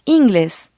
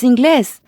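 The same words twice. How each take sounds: First: The stress is on the first syllable. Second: The stress is on the last syllable. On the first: The speaker calls it wrong. "not inglés" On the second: The speaker calls it right. "the emphasis is on the last syllable. It's inglés"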